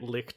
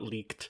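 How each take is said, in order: First: The word has a short 'i' vowel, like 'lick'. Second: The word has a long 'ee' vowel, like 'leak'. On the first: The speaker calls it wrong. "I hate that you're saying it licked" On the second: The speaker calls it right. "I'm pretty sure you would pronounce that leaked in German"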